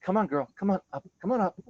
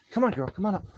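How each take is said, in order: First: Much higher, sing-song coaxing with bacon; calling the dog up with bacon in hand. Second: High, sing-song coaxing of a dog; calling the dog up sweetly. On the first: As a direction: lure the dog up, sweet and high. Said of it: "And I'm like". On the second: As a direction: coax the dog up onto the bed. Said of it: "I'm like". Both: Retold or imitated.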